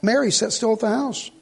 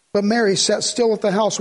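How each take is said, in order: First: Softer, "Mary" lifted with a rise; "Mary" stressed, line read quieter. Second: "still" leaned on, falling; "still" given the weight; stress on still. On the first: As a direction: point the listener to "Mary". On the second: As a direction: press the word "still" as you read. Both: Shown as a demonstration. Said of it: "Would you underline that?".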